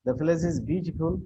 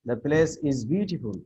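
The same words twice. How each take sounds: First: The place is beautiful with the voice lifting at the end; rising intonation. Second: The place is beautiful with the voice falling at the end; falling statement. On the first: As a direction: ask it, lift beautiful up. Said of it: "Here, rise". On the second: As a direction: state it plainly, let beautiful drop. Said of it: "example of intonation". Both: Shown as a demonstration.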